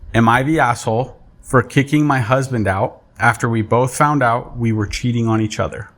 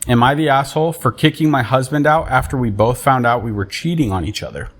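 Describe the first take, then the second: First: It is read very slowly. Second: It is read at normal speed.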